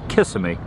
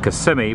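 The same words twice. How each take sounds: First: It is pronounced the way tourists say it. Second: It is pronounced the way locals say it. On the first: The person saying it is a visitor. The speaker calls it wrong. "people say Kissimmee. That way I know they're tourists" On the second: The person saying it is from there. The speaker calls it right. "I'm from Kissimmee"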